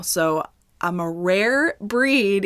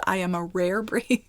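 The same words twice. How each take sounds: First: Each word drawn out slow and weighted; a slow, proud-sounding mock boast; slow emphatic. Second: Giggling through the word breed; amused half-laughed aside; laughing repeat. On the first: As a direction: lean hard on rare, taking your time. Jokes about own rare condition. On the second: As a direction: laugh as you land the joke again. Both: Real, not acted.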